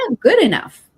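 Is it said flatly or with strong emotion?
strong emotion. It is said with strong, felt emotion.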